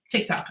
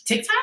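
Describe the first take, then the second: First: Said in the usual way. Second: Unsure question. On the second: Real, not acted. Unsure what app, asks.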